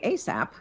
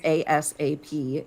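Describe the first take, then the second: First: It is pronounced as a single word. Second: It is spelled out letter by letter. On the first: "It's an acronym now" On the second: "if I say it as ASAP, it's an initialism"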